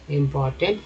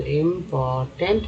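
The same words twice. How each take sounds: First: Said in the usual way. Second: important drawn out part by part; teacher sounding out important in slow chunks; broken into parts. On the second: Shown as a demonstration. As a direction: split important slowly into इम, पोर, tent. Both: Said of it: "TNT को tent बोलते हैं".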